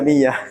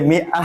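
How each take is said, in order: First: The middle sound is a y sound. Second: The middle sound is a glottal stop. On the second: "Dia mi'ah hamzah tu"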